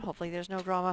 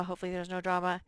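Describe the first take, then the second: First: Said in the usual way. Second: Rushed repeat at double speed; fast mutter. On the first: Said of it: "repeats phrase". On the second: Shown as a demonstration. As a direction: rattle it off quickly under breath. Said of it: "repeats phrase fast".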